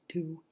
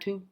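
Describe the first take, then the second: First: The vowel is said with strongly rounded lips. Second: The vowel is said without clear lip rounding. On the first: The speaker calls it right. "See my mouth? ... That W because it's important" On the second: The speaker calls it wrong.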